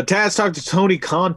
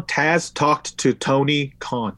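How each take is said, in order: First: Said in the usual way. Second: Slow, deliberate word by word; measured, careful repeat of a tongue twister. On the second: Shown as a demonstration. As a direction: spell out each word slowly. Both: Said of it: "Say that three times".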